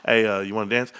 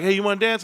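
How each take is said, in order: First: Said in the usual way. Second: Higher acted voice asking to dance; dance invitation. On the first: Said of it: "You walk up to a girl". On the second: Someone at the nightclub asks him to dance, lightly acted higher voice. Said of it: "they'll be like".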